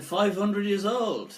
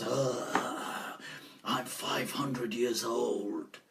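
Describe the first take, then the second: First: Higher, slower questioning echo; retold surprise. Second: Low, slow, quiet jinn voice; ancient jinn. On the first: Interviewer reacting to the jinn's age, mock surprise. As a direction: repeat it back in mock amazement. Teller echoes jinn's answer, taken aback. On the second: Retold or imitated. Jinn answering how old he is, low slow voice. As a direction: draw it out low like an ancient spirit. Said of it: "So he goes".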